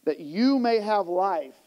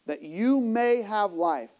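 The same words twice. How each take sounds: The two takes are said the same way.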